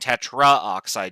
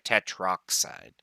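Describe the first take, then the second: First: A vowel is heard between 'tetr' and 'oxide'. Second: No vowel is heard between 'tetr' and 'oxide'. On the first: The speaker calls it wrong. "Instead of saying tetraoxide" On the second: The speaker calls it right. "you'd say tetroxide"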